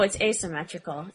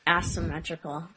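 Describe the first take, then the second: First: The first syllable does not sound like 'ass'. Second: The first syllable sounds like the word 'ass'. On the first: The speaker calls it right. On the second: The speaker calls it wrong. "You called him like it's related to your ass"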